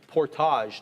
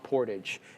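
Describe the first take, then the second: First: It is said with a French-style pronunciation. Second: It is said with an English-style pronunciation. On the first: This is how Canadians say it. The speaker calls it right. "we have that kind of French side to us" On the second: This is not how Canadians say it. The speaker calls it wrong. "not portage"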